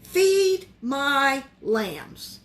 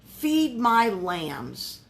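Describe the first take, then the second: First: "Feed my lambs" even slower, each word set apart; slower still. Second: "Feed my lambs" drawn out very slowly, stress on Feed; slow emphatic. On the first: Preacher repeating the key verse, very slow and deliberate. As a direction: let "Feed my lambs" hang, almost paused between words. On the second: Preacher underlining the verse for the congregation, slow and weighty. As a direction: lean on "Feed" and stretch every word. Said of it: "I would underline". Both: Shown as a demonstration.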